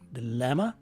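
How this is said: The first syllable has a short i vowel. This is the North American pronunciation. "in North America we use a short letter I in the first syllable"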